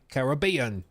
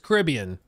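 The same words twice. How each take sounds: First: It is said in a British accent. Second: It is said in an American accent. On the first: "The British, they get a bottle of water and then they say Caribbean" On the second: "American pronunciation is Caribbean"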